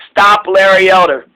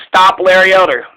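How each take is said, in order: Both takes have the same delivery.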